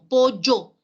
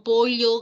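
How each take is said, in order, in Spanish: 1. La ll se pronuncia como un sonido 'y'. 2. La ll se pronuncia como un sonido lateral 'ly'. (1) "Hacemos como esta letra de acá, ¿no? La Y" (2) "En nuestro dialecto no pronunciamos la doble L, no decimos pollo"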